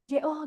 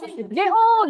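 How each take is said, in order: First: The name is called quietly. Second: The name is called loudly. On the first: The call is drowned out by the waves. "nggak kedengeran kan?" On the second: The call is heard over the waves. "Jadi mau nggak mau harus"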